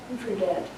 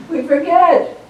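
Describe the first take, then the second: First: Softer and lower, turned inward; soft reflective repeat; quiet echo. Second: Higher and louder, a rueful exclamation; bright emphatic confession. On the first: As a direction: let the words sink in quietly. Echoed softly to congregation. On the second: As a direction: throw it out, owning the fault. Emphatic admission to congregation. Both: Acted.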